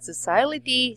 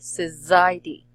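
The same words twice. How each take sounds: First: The middle consonant is an S sound. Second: The middle consonant is a Z sound. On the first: The speaker calls it wrong. "Not society" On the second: The speaker calls it right. "it should be Z"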